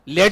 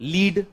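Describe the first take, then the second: First: The vowel is a short 'e' sound. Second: The vowel is a long 'ee' sound. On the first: The speaker calls it right. "लेड बोलते हैं" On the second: The speaker calls it wrong. "लीड नहीं बोलते"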